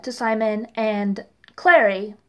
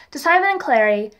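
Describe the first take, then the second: First: "to Simon and Clary" in a light mock British accent. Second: Said in the usual way. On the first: Reviewer ends her recap in a mock British accent. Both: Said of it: "I'm coming back into America now".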